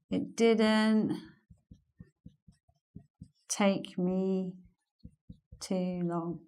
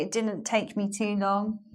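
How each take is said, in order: First: "It didn't", long pause, "take me", long pause, "too long"; slow chunked phrasing. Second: Said in the usual way. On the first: Shown as a demonstration. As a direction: break the sentence into three slow pieces with pauses.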